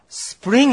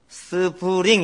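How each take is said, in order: First: The word is said as one single syllable. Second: The word is said as three full syllables. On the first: The speaker calls it right. "스프링 해야 됩니다" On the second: The speaker calls it wrong. "스프링 이러면 안 되고요"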